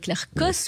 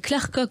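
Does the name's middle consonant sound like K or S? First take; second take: S; K. First: The name has a soft S sound. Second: The name has a hard K sound. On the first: This is the standard French reading of the spelling. "en bon français, ce serait Claire Koss, puisqu'il y a une cédille" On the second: It evokes the Gallic rooster. "ça me dérange pas non plus, ça évoque le coq gaulois"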